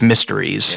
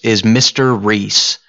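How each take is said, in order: First: The two words are run together quickly. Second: The two words are said at a normal pace. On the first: It hints at the word mysteries. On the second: It is a character's name.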